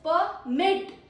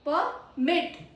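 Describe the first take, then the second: First: The stress is on the second syllable. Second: The stress is on the second syllable.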